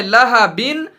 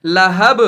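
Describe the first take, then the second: First: लहबिन read with the final -in fully sounded; full vowel ending. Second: लहब with the final बा stopped, no vowel; pausal reading. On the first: Teacher reads लहबिन as written, full ending. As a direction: say लहबिन as lahabin with the nunation. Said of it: "लिखा है लहबिन". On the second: Teacher shows लहब read with a stop on the last letter. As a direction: say लहब as lahab, cut off on the b. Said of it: "लेकिन पढ़ना है लहब". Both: Shown as a demonstration.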